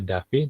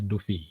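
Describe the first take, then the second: First: The first vowel sounds like 'a'. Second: The first vowel sounds like 'u'. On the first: The speaker calls it wrong. "Jadi bukan dibaca Davi" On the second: The speaker calls it right. "tapi orang ini dibacanya Dufi"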